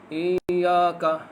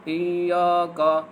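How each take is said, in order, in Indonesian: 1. Digumam santai, mulut hampir tidak terbuka. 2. Digumam santai, mulut hampir tidak terbuka.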